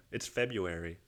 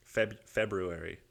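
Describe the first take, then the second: First: "February" as Feb-yoo-ary; silent R. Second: "February" slowly as Feb-roo-ary; sounded R. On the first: Retold or imitated. People correcting him on "February", silent first R. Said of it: "that's a silent R". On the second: Shown as a demonstration. Puzzling over "February", trying it with the first R sounded. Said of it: "How do you fucking pronounce".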